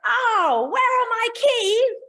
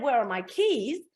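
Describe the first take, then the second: First: The question sounds aggressive and threatening. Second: The question sounds gentle and unthreatening.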